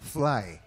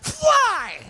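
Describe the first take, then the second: First: It is said small and restrained. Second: It is said big and projected. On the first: This suits acting on television. "Kung sa T V" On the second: This suits acting on a theater stage. "Pag sa theater, fly! Ganun, Lalakihan mo palagi"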